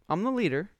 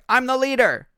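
First: The phrase is said in a light, friendly tone. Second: The phrase is said in a bossy, commanding tone. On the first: The speaker is simply describing a guiding role. The speaker calls it right. "I'm like" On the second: The speaker is asserting authority over others. The speaker calls it wrong. "But I didn't say it as like"

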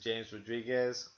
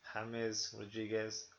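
First: The name is said the English way. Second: The name is said the Spanish way. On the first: The speaker calls it wrong. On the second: The speaker calls it right.

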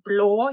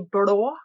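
First: It is said with an ordinary, light L. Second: It is said with the thick Borre dialect L.

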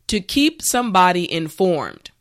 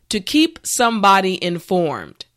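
Both takes have the same delivery.

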